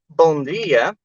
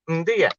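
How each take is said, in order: First: The first word is pronounced in full. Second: The first word is reduced to a grunt. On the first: "instead of saying bon dia" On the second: "we replace bon with a grunt"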